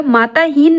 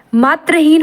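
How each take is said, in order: First: माताहीन with long -taa; wrong form. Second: Said in the usual way. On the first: Shown as a demonstration. Teacher rejects a misspelling, माताहीन with long middle aa. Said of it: "माताहीन नहीं होता". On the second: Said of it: "मातृहीन होता".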